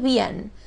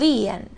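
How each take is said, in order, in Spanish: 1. Una sola sílaba, con diptongo. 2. Dos sílabas, acento en la primera. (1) "pero decimos bien. ¿Por qué? Porque es un diptongo" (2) "Si nosotros tuviéramos el tilde en la i, diríamos"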